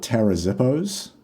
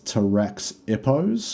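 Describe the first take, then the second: First: The middle consonant is sounded as Z. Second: The middle consonant is sounded as KS. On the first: "pronounce the X like a Z" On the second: "otherwise it's"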